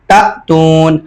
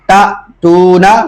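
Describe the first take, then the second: First: The word ends on the consonant n. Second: The word ends with a final vowel sound.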